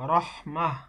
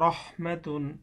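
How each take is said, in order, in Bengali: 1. শব্দটি একটি শ্বাসযুক্ত 'h' ধ্বনি দিয়ে শেষ হয়। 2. শব্দটি পূর্ণ 'tun' ধ্বনি দিয়ে শেষ হয়।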